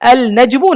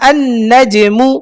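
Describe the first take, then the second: First: The article's L sound is pronounced clearly. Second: The L merges into a doubled N sound. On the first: The speaker calls it wrong. "আল নাজমু না" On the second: The speaker calls it right. "না আন নাজমু"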